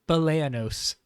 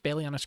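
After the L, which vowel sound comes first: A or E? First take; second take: A; E. First: The A sound comes before the E sound. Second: The E sound comes before the A sound. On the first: The speaker calls it right. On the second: The speaker calls it wrong.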